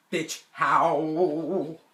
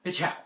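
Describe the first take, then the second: First: Louder, drawn-out disbelief; loud incredulous retort. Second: Quick, higher-pitched disbelief; incredulous retort. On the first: Camper rejecting the squirrel excuse again, loud drawn-out incredulity. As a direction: stretch out HOW loudly in disbelief. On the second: Camper hearing the squirrel excuse, quick incredulous retort. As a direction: toss it back in disbelief. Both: Retold or imitated.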